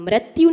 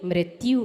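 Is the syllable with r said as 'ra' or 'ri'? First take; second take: ra; ri. First: The r syllable sounds like plain 'ra'. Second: The r syllable sounds like 'ri'. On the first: The speaker calls it wrong. "नहीं होती" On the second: The speaker calls it right. "होती है"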